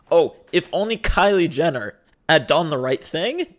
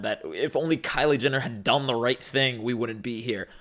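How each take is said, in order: First: Mocking singsong repeat with a rising end; sarcastic echo. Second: Said in the usual way. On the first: Mocking the people who complain online, sarcastic echo. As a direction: parrot the phrase back with scorn.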